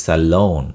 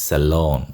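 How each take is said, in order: No difference in how they are said.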